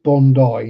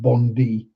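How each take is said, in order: First: The word ends with an 'eye' sound. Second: The word ends with an 'ee' sound. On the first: The speaker calls it right. "that spelling is pronounced Bondi" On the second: The speaker calls it wrong. "not Bondi. Bondi is spelt with a Y"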